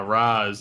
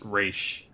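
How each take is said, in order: First: The name ends with a z sound. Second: The name ends with a sh sound. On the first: The speaker calls it wrong. "saying ah Raz" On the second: The speaker calls it right. "it should be pronounced Raish"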